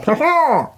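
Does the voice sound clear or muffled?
muffled. The laugh sounds muffled, as if inside a bag.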